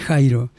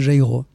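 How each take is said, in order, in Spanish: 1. La J se pronuncia a la española. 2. La J se pronuncia a la francesa. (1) "Pero ella no, ella quería decir Jairo" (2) "decían en francés, decían Jairo"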